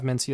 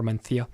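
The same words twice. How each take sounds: First: Said in the usual way. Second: Mencia with a lisped th, men-THI-a; Castilian Mencia. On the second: Shown as a demonstration. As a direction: say Mencia as men-thee-a, Spanish th. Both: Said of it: "or Mencia".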